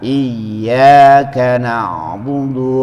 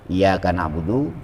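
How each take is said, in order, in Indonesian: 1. Bunyi y dibaca ganda dan ditekan. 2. Bunyi y dibaca pendek dan tunggal. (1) "Maka bacanya ditekan" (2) "Enggak ada dibaca"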